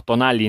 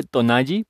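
First: "tonali" with a plain L sound; alternative pronunciation. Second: "tonalli" with double L as Y; chosen pronunciation. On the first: Host offering another reading, "tonali" with a plain L. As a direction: say "tonali" ending in "lee". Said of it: "no sé cómo lo quieren pronunciar". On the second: Host settling on a reading, "tonalli" with a Y sound. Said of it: "vamos a decirle tonalli". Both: Shown as a demonstration.

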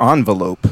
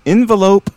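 First: "envelope" starting with AHN as in "on"; first syllable AHN. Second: "Envelope" starting with EN as in "ten"; first syllable EN. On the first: Host offering guest the alternative, "envelope" pronounced AHN-velope. Offers two pronunciations as a choice. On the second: Host offering guest a choice, "Envelope" pronounced EN-velope. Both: Shown as a demonstration.

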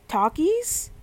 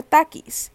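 First: Takis said the English way, aspirated T, rising; English pronunciation. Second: Spanish pronunciation. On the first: Unsure how to say a Spanish word, English pronunciation of Takis. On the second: Offering the other option, Spanish pronunciation of Takis. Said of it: "like, in Spanish". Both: Shown as a demonstration.

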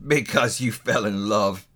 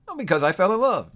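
First: Slow, sour miser's growl; grumbling, drawn-out disbelief; growled scorn. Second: High, quick, open-hearted answer; lifted, lively confession; cheerful nephew. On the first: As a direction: echo it with heavy contempt. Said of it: "growled Scrooge". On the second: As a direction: say it lightly and happily. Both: A narrator's reading.

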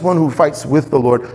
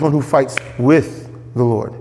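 First: Said in the usual way. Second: Slow down, setting "with" apart with pauses; "with" held as the key word; stress on WITH. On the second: Retold or imitated. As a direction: lean on "with", drawn out and separated. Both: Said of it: "It's not just".

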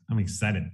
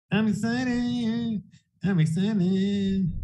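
First: Said in the usual way. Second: Higher and very slow, stretching each word; slow, high, sing-song "I'm excited"; drawn-out excited. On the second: Shown as a demonstration. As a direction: draw it out high, savoring the hype. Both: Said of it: "repeated line, plain then stretched".

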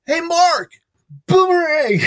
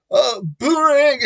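First: High, loud call across the hall. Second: Boomerang said through a real laugh, higher and louder; laughing reply. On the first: Retold or imitated. Girl calling across the catwalk, loud and high. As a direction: shout it cheerfully across the catwalk. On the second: Real, not acted. Answering the girl's call across the catwalk, laughing.

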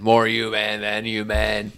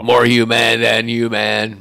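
First: Slow, lightly growled rock singer voice; [name] impression. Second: Slow, loud growled rock singer voice; [name] impression. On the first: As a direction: stretch the words like a metal frontman. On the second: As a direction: drag it out like a metal frontman. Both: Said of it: "That was a really good [name] impression".

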